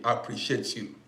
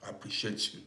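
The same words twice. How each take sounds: First: Said in the usual way. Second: Softer, breathy whisper of thanks. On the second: Real, not acted. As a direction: whisper it intimately to her. Thanking viewer for gift.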